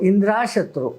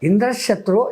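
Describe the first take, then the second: First: The vowel after 'Indr' is long. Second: The vowel after 'Indr' is short. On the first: May I, Indra's enemy, be destroyed. The speaker calls it wrong. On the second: May Indra, the enemy, die by my hand. The speaker calls it right.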